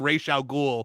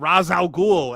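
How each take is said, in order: First: The first part sounds like 'Raish'. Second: The first part sounds like 'Raz'. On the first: This is the name as its owner says it. The speaker calls it right. ""I'm Ra's al Ghul,"" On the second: The listeners repeat the name in an American way. The speaker calls it wrong. "No, I just told you my name, you you slovenly American"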